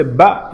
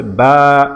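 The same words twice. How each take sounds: First: Said in the usual way. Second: Stretched "বা", steady long aa; drawn-out "বা". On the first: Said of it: "আমরা আগে পড়েছিলাম বা জবর বা". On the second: Shown as a demonstration. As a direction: hold the long vowel of "বা". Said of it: "আমরা একটু টেনে পড়ব". (টেনে পড়া "বা")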